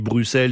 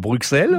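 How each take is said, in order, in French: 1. La consonne du milieu est un simple son s. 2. La consonne du milieu est un son ks. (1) "comme on dit Bruxelles" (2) "on ne dit pas Bruxelles"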